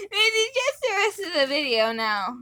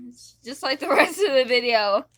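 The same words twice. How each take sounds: First: Helium voice. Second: Said in the usual way. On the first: Real, not acted. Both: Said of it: "on freaking Helium".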